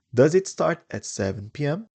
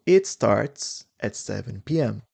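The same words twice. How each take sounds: First: Higher question, rising on "P M"; lifted question tune with "P M" going up; interrogative rising tune. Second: Statement tune, no question lift on "P M"; plain statement close on "P M"; affirmative statement tune. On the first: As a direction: ask it, climbing up to "P M". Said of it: "If it's interrogative". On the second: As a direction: state it, settling on "P M". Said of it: "here it's affirmative". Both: Shown as a demonstration.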